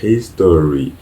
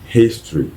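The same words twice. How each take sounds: First: The opening h sound is dropped. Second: The opening h sound is clearly pronounced. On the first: The speaker calls it wrong. "on ne dit pas history" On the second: The speaker calls it right. "mais on dit history ... On prononce le H"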